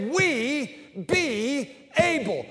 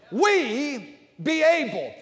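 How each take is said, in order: First: "We be able" drawn out slowly; emphatic "We be able". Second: Slow, stretched "We be able"; emphatic. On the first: Preacher teaching the church its motto, slow and emphatic. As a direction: lean into "We be able", slow and firm. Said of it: "Baptist people say". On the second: Preacher showing the church the convinced way, slow. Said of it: "I'm talking about emphatic". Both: Shown as a demonstration.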